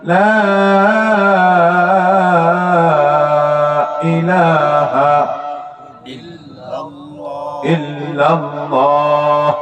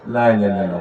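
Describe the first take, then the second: First: The opening 'la' vowel is drawn out long. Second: The opening 'la' vowel is short. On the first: The speaker calls it right. "লায়ের মধ্যে তিন আলিফ টান" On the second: The speaker calls it wrong. "অনেকে বলে"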